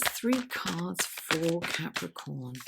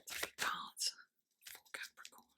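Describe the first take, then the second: First: Said in the usual way. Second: Barely audible, voiceless whisper; whispered request. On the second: Real, not acted. Tarot reader asking the deck for cards, whispered. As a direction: whisper it to the deck, fading away.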